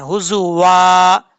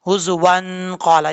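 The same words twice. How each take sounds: First: हुजू वा ending on a long open aa; stopped reading. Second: हुजू वन क़ाला joined, humming the nasal n; joined with ghunnah. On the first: Teacher showing the stop, long open वा in हुजू वा. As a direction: slowly hold the वा of हुजू वा, no n. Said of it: "हम यहाँ पे stop कर रहे हैं". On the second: Teacher showing joined reading, nasal n linking हुजू वन क़ाला. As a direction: run हुजू वन into क़ाला through a held nasal n. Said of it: "अगर मिला के पढ़ेंगे तो अलिफ को छोड़ देंगे". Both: Shown as a demonstration.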